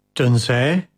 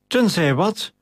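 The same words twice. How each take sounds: First: "Tenzij" left hanging with a rise; tentative trailing question. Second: Mildly snorted demand. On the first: Captain suddenly realizes something, tentative "Tenzij". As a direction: draw out "Tenzij" as an unfinished, rising thought. Captain stops, struck by a thought. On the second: Flavius pressing the hesitating captain, impatiently indignant. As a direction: demand an answer with restrained anger. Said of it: "brieste Flavius Octavius". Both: A narrator's reading.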